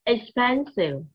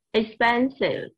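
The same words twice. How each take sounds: First: Expensive said as ex-PEN-sive, three clear syllables; teacher sounding out Expensive; modelling the word. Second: Expensive again, ex-PEN-sive, each syllable clear; teacher repeats Expensive for the class; repeated model. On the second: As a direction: say Expensive once more. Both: Shown as a demonstration. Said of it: "teacher models word".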